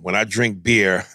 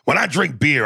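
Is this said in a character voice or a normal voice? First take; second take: normal voice; character voice. First: It is said in the speaker's normal voice. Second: It is said in a put-on character voice.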